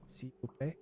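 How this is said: It is an attempt at a French accent. "If I actually try"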